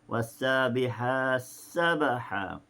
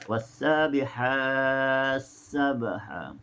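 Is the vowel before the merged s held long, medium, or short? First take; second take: short; medium. First: The vowel before the merged s is held shortest. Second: The vowel before the merged s is held medium. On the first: "atau dua harakat" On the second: "ataupun empat harakat"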